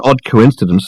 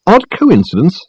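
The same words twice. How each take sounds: First: Said in the usual way. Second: High, scornful echoed question; snorting disbelief. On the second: A narrator's reading. Dirk scoffing at Richard's word coincidence, snorting. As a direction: throw ODD COINCIDENCE back, high and incredulous. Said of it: "snorted Dirk".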